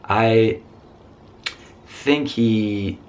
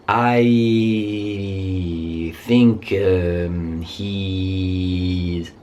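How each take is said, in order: First: The gap between words is left silent. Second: A hesitation sound fills the gap between words. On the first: The speaker calls it right. "just be quiet" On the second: The speaker calls it wrong. "In English, it would sound like"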